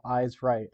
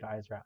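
First: A slightly louder drill call; crisp parade-ground command, only lightly raised. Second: "Eyes Right." said softly, voice dropping away; quiet, choked "Eyes Right."; tearing up. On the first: Retold or imitated. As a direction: call it out like on the march. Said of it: "they would call". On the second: Real, not acted. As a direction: let "Eyes Right." fade as tears come. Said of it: "I'm tearing up right now".

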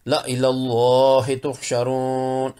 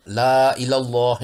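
First: ला इलल्लाहि तुहशरून slow, joined, alif not read; correct reading. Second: ला इलल्लाह with the alif of ला read long; wrong reading. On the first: (ला इलल्लाहि तुहशरून सही, धीमे) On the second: (ला इलल्लाह गलत, ला का अलिफ लंबा) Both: Shown as a demonstration. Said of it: "नहीं पढ़ेंगे".

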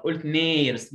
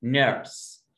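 First: نيرس with a long ee as the mistake; wrong version. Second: نيرس with a short er sound; correct model. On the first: Teacher quoting the wrong نيرس. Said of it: "ادي نفسك غلط". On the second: Teacher gives the right نيرس. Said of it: "ما اسمهاش نيرس". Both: Shown as a demonstration.

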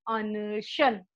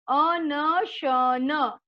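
First: Said in the usual way. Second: अनशन split slowly into a-na-sha-naa; syllable by syllable. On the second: Shown as a demonstration. Teacher to children, sounding out अनशन slowly. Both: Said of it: "शुद्ध उच्चारण के साथ हम बार बार दोहरा".

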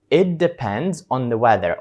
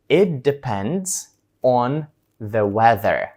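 First: A bit slower than usual, clear; slow repeat. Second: Very slow, deliberate answer; slow model answer. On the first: Teacher repeats the answer for students. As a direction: repeat it plainly for copying. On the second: Teacher acts out a slow answer to the trip question. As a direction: draw each word out for learners. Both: Shown as a demonstration. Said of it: "І ви відповідаєте".

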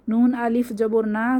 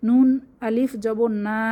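Both takes have the same delivery.

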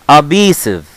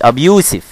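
First: ABUSIVE as a-BEE-siv; correct pronunciation. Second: "أبيوسف" as ab-YOO-sif, like the name Yousef; wrong pronunciation. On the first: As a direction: say "Abusive" with a long ee and no YOO. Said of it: "مش أبيوسف". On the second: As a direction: say "أبيوسف" with a long oo and final F. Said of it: "مش". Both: Shown as a demonstration.

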